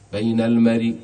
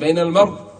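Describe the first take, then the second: First: The final sound carries a faint, partial vowel. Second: The final sound ends fully silent, without vowel. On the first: "يجوز لنا الروم فيه" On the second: "ويجوز لنا الإسكان"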